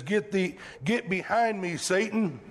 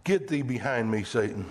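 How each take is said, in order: First: Said in the usual way. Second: Low, stern command, dropping on Satan; Jesus rebuking Satan in a low stern voice; stern rebuke. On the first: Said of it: "the N I V says". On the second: Retold or imitated. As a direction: order the tempter away. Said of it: "the sternest or the harshest words".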